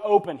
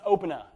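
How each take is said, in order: First: The word ends plainly with no extra vowel. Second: The word ends with an extra vowel sound added. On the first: The speaker calls it right. "Ben says the word open" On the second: The speaker calls it wrong. "He says open-a. It's pronounced really weird"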